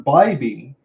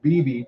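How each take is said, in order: First: The first syllable sounds like 'bye'. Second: The first syllable sounds like 'bee'. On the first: The speaker calls it right. "I hope that I'm pronouncing this correctly" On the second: The speaker calls it wrong. "I'm making sure I'm not saying it like B B"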